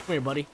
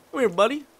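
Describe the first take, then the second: First: Said in the usual way. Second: Higher, louder call with a rising end. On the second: Real, not acted. Player calling a game character over, louder and rising. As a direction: sing out to the little guy to come over.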